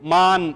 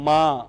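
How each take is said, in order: First: The word ends with a full n sound. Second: The word ends with only a nasalized vowel. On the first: "इसे आप नुक्ते के साथ पढ़ेंगे तो ये लफ्ज होगा" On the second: "नूने गुन्ना के साथ पढ़ेंगे तो ये होगा"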